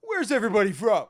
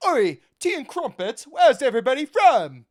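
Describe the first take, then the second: First: Said in the usual way. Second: Loud, high hammed-up English accent. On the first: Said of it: "Or, sorry". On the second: Mocking a bald announcer asking where everybody's from, hammed-up English accent. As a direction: holler it like a caricature English announcer. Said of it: "That's my best English accent".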